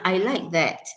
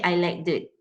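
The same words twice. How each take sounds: First: The final 'that' has a full, strong vowel. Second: The final 'that' has a reduced, weak vowel. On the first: The speaker calls it right. "if that comes at the end of the sentence, like you're pointing to something" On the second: The speaker calls it wrong. "you don't say"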